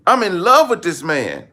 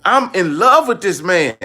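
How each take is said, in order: Both takes have the same delivery.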